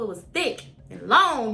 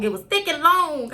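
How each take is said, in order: First: Said in the usual way. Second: Higher and louder, punching long; emphatic repeat. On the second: Real, not acted. Describing the needle to viewers, emphatic repeat. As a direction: hammer home how big it was.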